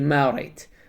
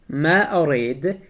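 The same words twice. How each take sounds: First: The phrase is said quickly and run together. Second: The phrase is said slowly and fully. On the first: "they pronounce it quickly" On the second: "Instead of saying"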